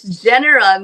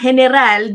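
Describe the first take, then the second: First: The name is said with the English pronunciation. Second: The name is said with a non-English pronunciation. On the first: This is how the name is said locally in Canada. "dito daw it's general" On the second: This is how the host first says the name. "Sabi ko nga general"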